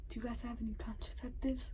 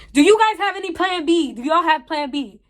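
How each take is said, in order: First: Hushed, breathy whisper of an embarrassed customer; whispered question. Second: Higher and louder, fed up; exasperated louder ask. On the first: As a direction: whisper it so nobody else hears. Embarrassed ask at pharmacy counter. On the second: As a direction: finally blurt it out loud. Clerk keeps not understanding. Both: Retold or imitated.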